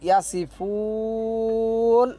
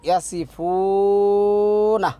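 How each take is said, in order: First: The word ends on a lengthened bare n. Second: The word ends with a vowel after the n.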